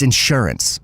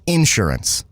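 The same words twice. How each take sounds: First: Said in the usual way. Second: Insurance stressed up front, IN-surance; Southern pronunciation of insurance. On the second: Shown as a demonstration. Showing how people down here say it, insurance as IN-surance. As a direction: hit the first syllable of insurance. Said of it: "what people say down here that they don't say up north".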